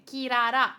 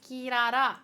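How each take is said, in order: First: Loud call of the name. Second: Calling out again. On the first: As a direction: call her name across the room. Calling the character's name. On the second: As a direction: call her once more. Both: Real, not acted.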